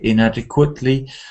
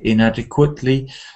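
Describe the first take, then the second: First: The stress falls on the fourth syllable. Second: The stress falls on the fourth syllable.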